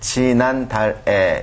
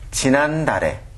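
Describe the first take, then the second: First: It is read syllable by syllable, as spelled. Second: The final consonant links smoothly into the next syllable. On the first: "한글로 쓸 때는 지난달에 이렇게 쓰지만요" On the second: "발음할 때는 지난달에, 지난달에 이렇게 발음하셔야 됩니다"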